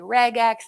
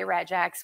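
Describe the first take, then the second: First: The G is hard, like in get. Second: The G is soft, like in gem. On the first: "Some people say regex" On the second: "with a soft G"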